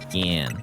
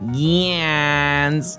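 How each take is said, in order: First: The name is said flatly, without energy. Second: The name is said lively, with energy. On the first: The speaker calls it wrong. "It's not very exciting" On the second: The speaker calls it right. "that's a very fun"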